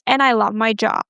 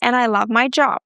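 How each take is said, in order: First: The voice falls at the end. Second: The voice rises at the end. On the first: The speaker seems assertive and confident. The speaker calls it right. "the second one with the falling pattern" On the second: The speaker seems insecure and unsure. The speaker calls it wrong. "I sound a little insecure"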